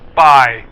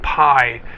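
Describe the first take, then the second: First: It starts with a soft b-like sound, like bye. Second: It starts with a breathy p sound, like pie. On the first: The speaker calls it right. "But it's pronounced bye" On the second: The speaker calls it wrong. "a lot of foreigners pronounce it pie"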